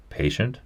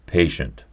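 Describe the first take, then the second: First: High, soft puzzled echo of the word; "Patient?" lifted up high as a bewildered question. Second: "Patient" stated flat with a falling close; a plain, matter-of-fact "Patient"; firm statement. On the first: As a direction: repeat it back, baffled, pitch rising. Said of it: "looking puzzled for the first time". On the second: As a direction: insist on the word, settling it. Doctor firmly repeats the word. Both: A narrator's reading.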